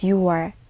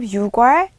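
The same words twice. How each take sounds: First: It has no k sound before wol. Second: It has a k sound before wol. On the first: The speaker calls it right. "it is" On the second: The speaker calls it wrong. "Instead of"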